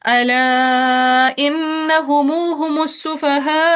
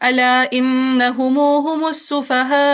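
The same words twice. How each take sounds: First: The vowel in 'ala' is held somewhat longer. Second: The vowel in 'ala' is held only briefly. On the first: "तवसुत के साथ" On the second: "मद मुनफसिल के कसर के साथ सिला"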